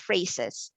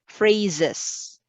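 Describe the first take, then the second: First: The middle consonant is a hissing S sound. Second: The middle consonant is a buzzing Z sound. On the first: The speaker calls it wrong. "it's not phrases" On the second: The speaker calls it right. "would have the S sound like Z"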